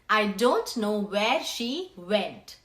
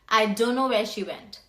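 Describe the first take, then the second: First: The words don't know are said in full. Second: The words don't know are reduced to dunno. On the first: "Instead of saying that" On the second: "you will say"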